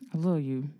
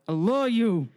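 First: It is said quietly. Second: It is said loudly.

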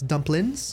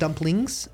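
First: The ending is a clipped 'in' sound. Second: The ending is a full 'ing' sound. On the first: The speaker calls it right. "With an N apostrophe" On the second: The speaker calls it wrong. "it's not dumplings"

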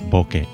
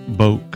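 First: It ends with ke as in kettle. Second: It is one syllable rhyming with poke. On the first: The speaker calls it right. "put the bo and the ke together to make bokeh" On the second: The speaker calls it wrong. "It's not boke that rhymes with poke"

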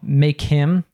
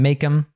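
First: The h in him is clearly pronounced. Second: The h in him is dropped entirely.

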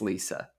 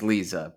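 First: The middle consonant is a hissing S sound. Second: The middle consonant is a buzzing Z sound. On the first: This matches how the name is spelled. The speaker calls it right. "it's Lisa because it's with an S" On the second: This is how it is said in the film. The speaker calls it wrong. "I think James Stewart says Lisa"

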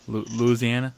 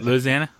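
First: It is said in a plain, neutral accent. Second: It is said with a Southern twang. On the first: "Did I say that right?" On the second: "A little more twang on there"

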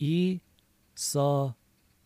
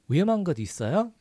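First: The phrase is said at a slow pace. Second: The phrase is said at a fast pace. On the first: "A little slower" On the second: "So a little faster"

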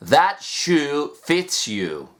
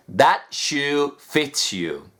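The two takes are said the same way.

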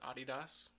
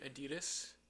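First: It is pronounced the European way. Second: It is pronounced the American way. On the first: This is how people elsewhere say the brand. "the rest of the world says Adidas" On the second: This is how people locally say the brand. "we say Adidas"

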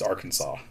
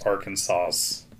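First: The final s sound is silent. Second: The final s sound is pronounced. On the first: The speaker calls it right. "in three syllables with the final S is silent" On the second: The speaker calls it wrong. "So you can't pronounce Arkansas's"

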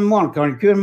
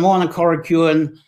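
First: The phrase is spoken quickly, running the words together. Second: The phrase is spoken at an ordinary, unhurried pace.

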